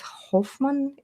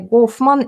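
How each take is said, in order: First: The name begins with an H sound. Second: The name begins with a hard G sound. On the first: This is how the name is said in English. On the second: This is how the name is said in Russian.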